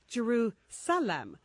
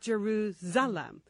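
First: The middle consonant is a hissing S sound. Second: The middle consonant is a buzzing Z sound. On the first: The speaker calls it right. "it's an S, not a Z, hence Jerusalem" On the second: The speaker calls it wrong. "not Jerusalem"

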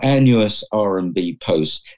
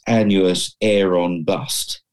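First: The name ends with a 'post' sound. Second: The name ends with a 'bust' sound. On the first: This is how the spelling seems to read. The speaker calls it wrong. "so it looked like" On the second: This is how the name is really said. The speaker calls it right. "but actually it's"

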